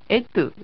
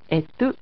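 First: The accent falls on the first syllable. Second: The accent falls on the second syllable. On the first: The speaker calls it wrong. "エトはエトでなくて" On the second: The speaker calls it right. "第二音節にアクセントがありますね"

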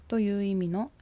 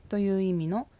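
No difference in how they are said.

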